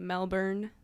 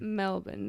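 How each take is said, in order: First: The last syllable is full, like born. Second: The last syllable is reduced, like bun. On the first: This is how the spelling suggests it. The speaker calls it wrong. "it looks like you would say Melbourne" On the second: This is how locals say it. The speaker calls it right. "That's how the guy said to pronounce it"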